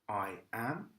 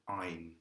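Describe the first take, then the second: First: It is said as two full words. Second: It is said as one contracted syllable.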